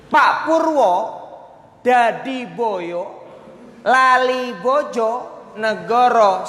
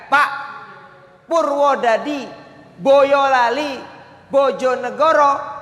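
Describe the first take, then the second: First: Pauses fall inside the place names. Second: Pauses fall between the whole place names. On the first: "kalimatnya sama, tapi saya ubah tempat berhentinya"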